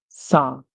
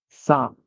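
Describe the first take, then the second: The two takes are said the same way.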